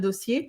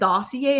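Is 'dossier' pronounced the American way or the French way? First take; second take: French; American. First: The word has a French-style pronunciation. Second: The word has an American English pronunciation.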